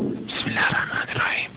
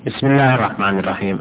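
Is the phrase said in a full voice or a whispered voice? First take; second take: whispered; full voice. First: It is said in a hoarse, whispered tone. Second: It is said in a full, voiced tone. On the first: The core of the voice is kept hidden. "هذا إخفات، رغم أنك سمعت لكن بصيغة صوت المبحوح" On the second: The core of the voice is brought out. "هذا جهر"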